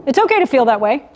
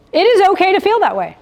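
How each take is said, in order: First: Said in the usual way. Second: "is" lifted high and emphatic; firm reassurance with the weight on "is"; stress on IS. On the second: Shown as a demonstration. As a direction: insist it IS okay, punching "is". Repeats it insisting on is.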